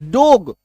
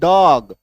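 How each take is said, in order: First: The vowel is a closed 'o' sound. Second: The vowel is an open 'aw' sound. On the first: The speaker calls it wrong. "डोग नहीं लिखते इसको" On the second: The speaker calls it right. "डॉग लिखते हैं"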